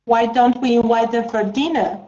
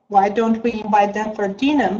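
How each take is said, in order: First: Teacher shows the line, stress on don't; model reading. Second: Teacher repeats the line, stress on dinner; model reading. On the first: Teacher models the line for student, stress on don't. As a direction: stress on don't, falling tune. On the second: Teacher repeats for student, stress on dinner. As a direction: stress on dinner, falling tune. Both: Shown as a demonstration. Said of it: "teacher models the line".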